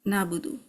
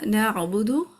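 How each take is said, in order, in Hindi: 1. पहला स्वर छोटा रखा गया है। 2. पहला स्वर लंबा खिंचा हुआ है।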